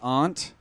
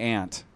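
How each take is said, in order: First: The word is said in a New Hampshire accent. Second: The word is said in a non-New Hampshire accent. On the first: "people from New Hampshire say aunt" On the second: "And then I say aunt"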